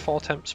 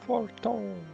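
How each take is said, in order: First: The name is said with every letter sounded. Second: The name ends in a silent-letter vowel sound. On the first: The speaker calls it wrong. "I want to call it House Fortemps" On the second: The speaker calls it right. "it's not like pronounced as you would read it"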